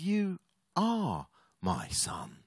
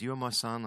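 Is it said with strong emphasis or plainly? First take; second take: emphasis; plainly. First: It is said with strong emphasis. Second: It is said plainly, without emphasis.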